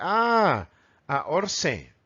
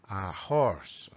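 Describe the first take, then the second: First: Horse said "orse" with no h; silent H in horse. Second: Horse with a soft breathy h; correct breathed H. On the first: Retold or imitated. Teacher imitating learners who drop the H. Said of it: "lee esta palabra y dice". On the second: Shown as a demonstration. Teacher giving the right horse with a soft H. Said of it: "Qué quiere decir horse".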